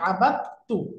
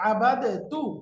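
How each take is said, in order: First: The d merges into a doubled t sound. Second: The d is pronounced separately before the t. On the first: "কিন্তু আমরা পড়ি ... এই দালটা উচ্চারণ হয় না, তার উপরে তাসদিদ হয়ে যায়" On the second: "নরমালি হওয়ার কথা শব্দটা হলো"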